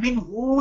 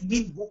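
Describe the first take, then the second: First: The final vowel is long. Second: The final vowel is short. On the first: The speaker calls it wrong. "अब मिन हु नहीं पढ़ेंगे" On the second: The speaker calls it right. "मिन हु पढ़ेंगे"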